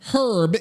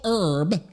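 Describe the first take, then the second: First: It is said British style, h pronounced. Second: It is said with an American silent h.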